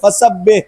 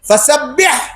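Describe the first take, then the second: First: The final throaty h sound is dropped. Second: The final throaty h sound is clearly pronounced. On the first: Insult your Lord. The speaker calls it wrong. "হাটা উচ্চারণ ঠিক মতো না করে, ফাসাব্বিহ এরকম করে" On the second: Glorify your Lord. The speaker calls it right. "উলামায়ে কেরাম বলেন"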